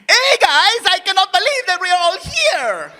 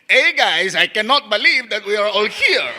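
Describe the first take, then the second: First: It is said lively, with lots of energy. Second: It is said flatly, with little energy.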